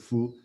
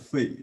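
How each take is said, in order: First: The syllable is pronounced fu. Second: The syllable is pronounced fei. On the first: This is the more authentic reading. The speaker calls it right. "for more educated people, they all they pronounce it as a fu" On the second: This reading confuses it with another character. The speaker calls it wrong. "common people, they will pronounce it as a fei"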